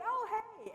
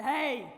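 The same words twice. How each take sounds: First: "Oh, hey." lifted much higher, friendly, no gruffness; gruff gone. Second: Loud, gruff retold shout of "Hey!". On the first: Retold or imitated. Uncle realizes the stranger is his niece's friend, friendly high greeting. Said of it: "the gruff was gone from his voice". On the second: Uncle catches a stranger in his backyard, gruff loud call. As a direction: bark it like a startled landowner catching a stranger. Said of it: "a voice from behind me that was kind of gruff".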